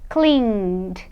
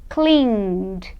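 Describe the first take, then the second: No difference in how they are said.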